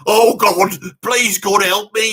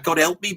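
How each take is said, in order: First: Loud mock plea to God, drawn out. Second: Said in the usual way. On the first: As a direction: cry out like a desperate rock singer begging for help. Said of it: "He's doing all that "God help me" bit". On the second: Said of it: "He's doing all that".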